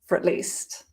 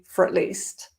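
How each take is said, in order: First: 'For at' is squeezed into one weak syllable. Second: The same.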